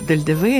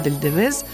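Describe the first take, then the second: First: The name ends without a final z sound. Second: The name ends with a final z sound. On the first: "иногда произносится так" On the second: "иногда «Дель Девез»"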